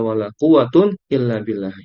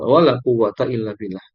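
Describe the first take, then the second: First: The word quwwat ends in the sound -un. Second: The word quwwat ends in the sound -a. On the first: The second noun is in the nominative case. "quwwatun yang kedua dirofakkan marfu dengan akhiran dhamma" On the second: The second noun is indeclinable with fatha. "yang kedua isim latnya dimabnikan atas fathah"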